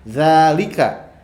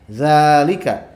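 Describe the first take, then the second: The two takes are said the same way.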